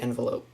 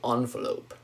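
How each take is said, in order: First: It is said in a relaxed, everyday way. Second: It is said in a careful, formal-sounding way. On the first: This is how the speaker normally says it. "I say envelope, typically" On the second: The speaker wants to sound professional. "If I want to sound very professional"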